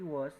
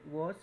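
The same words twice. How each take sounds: First: It is said with an American accent. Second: It is said with a British accent. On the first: "was en Estados Unidos" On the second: "Was se pronuncia en Gran Bretaña"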